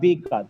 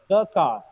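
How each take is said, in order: First: 'The' is said with a long 'ee' vowel. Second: 'The' is said with a short 'uh' vowel. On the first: The speaker calls it wrong. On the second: The speaker calls it right. "That is why it is pronounced the"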